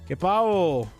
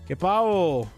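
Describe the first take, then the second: First: The second word is said with an h-like sound. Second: The second word is said with an h-like sound.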